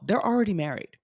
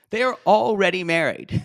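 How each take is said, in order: First: Said in the usual way. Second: Already stretched out, higher and firmer; emphatic, raised "already"; stress on already. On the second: Real, not acted. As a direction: lean hard on already to drive it home. Repeats it with emphasis.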